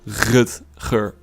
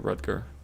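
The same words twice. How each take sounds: First: The name is said with a Dutch pronunciation. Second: The name is said with an English pronunciation. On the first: "my name in Dutch, it's pronounced Rutger" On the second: "You can say Rutger. That's uh, that's fine"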